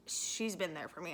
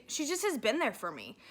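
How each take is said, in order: First: Real tears starting, much softer; choked up. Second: Said in the usual way. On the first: Real, not acted. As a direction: voice dropping low and soft, close to tears. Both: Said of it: "I feel like I'm getting emotional".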